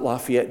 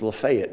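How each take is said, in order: First: "Lafayette" as lah-fee-ET; French-style pronunciation. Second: "Lafayette" as luh-FAY-et; Georgian pronunciation. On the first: Preacher says what the Georgia town is not called, French-style pronunciation. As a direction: say "Lafayette" with "lah" first and stress at the end. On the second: Preacher shows how Georgians name their town, Georgian pronunciation. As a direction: hit a long "FAY" in the middle of "Lafayette". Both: Shown as a demonstration. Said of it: "could not believe that Georgians pronounce".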